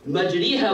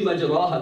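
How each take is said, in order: First: The ra sound is light and thin. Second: The ra sound is heavy and full. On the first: The speaker calls it right. "We say it with the light ra in that place to go with the meaning" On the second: The speaker calls it wrong. "it should be Majraha, but we don't say it like that"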